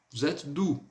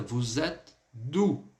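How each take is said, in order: First: Said in the usual way. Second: "Vous êtes d'où?" drawn out, gap before "d'où"; slow demonstration. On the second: Shown as a demonstration. Teacher showing how the question turned out, slow careful model. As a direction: say it slowly in two parts for learners. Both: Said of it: "por isso que ficou agora".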